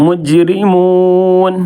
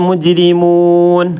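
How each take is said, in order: No difference in how they are said.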